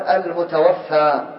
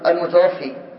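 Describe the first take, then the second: First: The word ends with a long 'aa' vowel. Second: The word ends with a long 'ee' vowel. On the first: Death befell the deceased. The speaker calls it right. "فيقال المتوفى" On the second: The deceased is the one who causes death. The speaker calls it wrong. "هذا خطأ شائع كثيرا"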